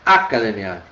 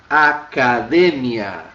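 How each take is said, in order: First: The stress is on the fourth-to-last syllable. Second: The stress is on the second-to-last syllable. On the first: The speaker calls it wrong. "também ela deve ser uma sobresdrúcula" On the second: The speaker calls it right. "Sobrou este camarada aqui como sendo a tônica"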